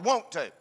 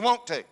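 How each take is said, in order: First: The vowel sounds like 'won't', Southern style. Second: The vowel sounds like standard 'want'. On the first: "won't to is the term that we use" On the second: "They don't say, do you want to?"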